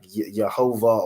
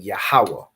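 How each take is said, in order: First: The name is said with a v sound, ending vah. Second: The name is said with a w sound, ending weh. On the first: This is how the oppressor would pronounce it. The speaker calls it wrong. "you're not saying like Yehovah" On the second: This is the ancient Hebrew pronunciation. The speaker calls it right. "You convert it into the ancient Hebrew. So you're saying Yahweh"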